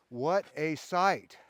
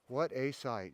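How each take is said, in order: First: Slow and loud, savoring each word. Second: Said in the usual way. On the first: Real, not acted. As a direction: draw it out in awe. Savoring view, repeated plainly after.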